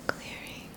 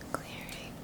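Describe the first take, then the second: No difference in how they are said.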